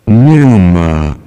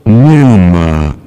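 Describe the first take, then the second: The two takes are said the same way.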